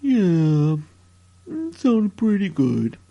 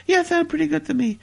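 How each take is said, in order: First: Very low, slow drawled character voice; Billy. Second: Said in the usual way. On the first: Acted. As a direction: answer low and drawn-out, in a put-on voice. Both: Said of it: "uh, Billy?".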